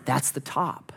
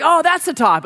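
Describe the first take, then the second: First: Softly to yourself, hopeful; quiet hopeful thought. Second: Higher, bright, eager "Oh"; excited exclaim. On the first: Hiker believing the ridge is the top, quietly hopeful. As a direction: murmur it, sure it is the top. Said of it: "you look and you think". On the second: Worn-out climber thinking he reached the summit, excited. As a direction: burst out, sure you have arrived. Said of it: "So you're like". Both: Retold or imitated.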